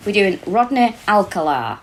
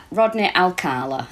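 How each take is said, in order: First: Rodney Alcala with stress on the first syllable, Al-kuh-la; wrong pronunciation. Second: Rodney Alcala said slowly as al-KAH-la; corrected pronunciation. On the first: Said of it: "Alcala, I think it is pronounced". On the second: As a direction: Alcala with the middle syllable stressed, slow. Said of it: "I think it is pronounced". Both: Real, not acted.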